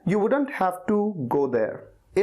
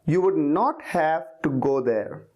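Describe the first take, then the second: First: 'Would not' is contracted to 'wouldn't', said faster. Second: 'Would not' is said as two full words.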